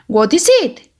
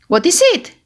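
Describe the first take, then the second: The two takes are said the same way.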